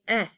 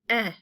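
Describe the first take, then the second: First: The vowel is a short 'eh' sound. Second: The same.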